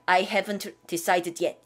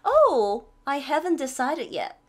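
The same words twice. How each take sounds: First: Said in the usual way. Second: Higher "Oh", sighing regretful line; expressive regret. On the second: Shown as a demonstration. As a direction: act a little sorry. (아쉬운 듯 감탄사 넣어) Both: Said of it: "이렇게 하지 말고".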